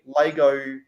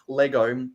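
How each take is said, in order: First: The first vowel sounds like 'ay'. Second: The first vowel sounds like 'eh'. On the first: This is the regional way with Cornish mining heritage. "we say Lego" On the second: This is the usual way elsewhere. "not Lego"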